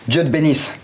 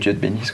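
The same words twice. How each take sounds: First: It is said in a furious, angry tone. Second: It is said in a sad, sorrowful tone. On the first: "Le vénère"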